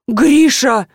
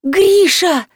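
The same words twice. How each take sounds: First: Raised, loud shocked cry of the name; shocked gasp. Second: High screeching call of her husband's name; shrill shout. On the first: Wife gasps at husband's cruel words. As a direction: gasp at what he just said. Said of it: "ахнула жена". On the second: Woman shrieking for her husband in the house. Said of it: "визгливо закричала". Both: A narrator's reading.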